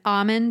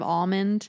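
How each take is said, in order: First: It is said with a Boston accent. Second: It is said with a standard accent. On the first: "We say sometimes" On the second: "instead of"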